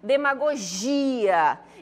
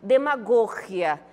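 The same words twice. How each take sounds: First: The stress falls where Portuguese places it. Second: The stress falls where Spanish places it. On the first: "quando a gente pronuncia na língua portuguesa" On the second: "E em espanhol, como é que ficaria?"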